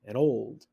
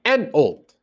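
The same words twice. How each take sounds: First: Put-on an old as one quiet weak beat; unstressed. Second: Put-on AN old, an punched high; accent AN, let old follow; stress on AN. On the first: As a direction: slip quietly over an old. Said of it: "It's an old". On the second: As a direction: wrongly hit AN before old. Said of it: "not an old". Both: Shown as a demonstration.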